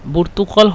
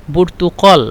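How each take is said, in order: No difference in how they are said.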